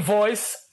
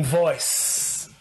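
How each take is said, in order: First: Said in the usual way. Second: "voice" low and drawn out; deep, weighty stress on "voice"; emphatic VOICE. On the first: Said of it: "I don't mean voice". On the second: Shown as a demonstration. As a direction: drop low and stretch "voice" slowly. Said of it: "I mean voice".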